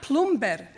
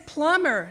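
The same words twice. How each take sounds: First: Plumber said as PLUM-ber, B spoken out, slowly; B sounded in plumber. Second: Said in the usual way. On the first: Shown as a demonstration. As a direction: plumber with the B said aloud, dragged out. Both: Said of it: "The B is silent".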